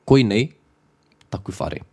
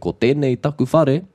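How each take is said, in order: First: The opening is squashed into one contracted word. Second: The opening is said as two full words. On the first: "I could say" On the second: "instead of saying"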